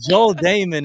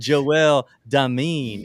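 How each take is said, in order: First: The name is said in a plain, nerdy way. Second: The name is said in a smooth, stylish way. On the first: "is Urkel" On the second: "is Stefan"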